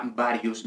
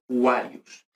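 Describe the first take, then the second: First: "varius" said BA-ri-us; "varius" with b, no w glide; wrong B sound. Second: "Warius" said WA-ri-us; "Warius" with w glide, no b or v. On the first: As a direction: open "varius" with a Spanish b. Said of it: "no sería varius". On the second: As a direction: open "Warius" with an English w. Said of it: "la V suena como W". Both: Shown as a demonstration.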